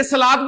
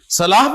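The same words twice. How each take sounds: First: صلاۃ ending in an audible T; final T sound. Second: صلاح ending in H, not T; final H sound. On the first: Teacher giving the reading to avoid, صلاۃ with final T. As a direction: close صلاۃ on a T, not H. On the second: Teacher asking which reading is right, صلاح with final H. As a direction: close صلاح on an H. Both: Shown as a demonstration. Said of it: "صلاح پڑھیں گے نا کہ صلاۃ".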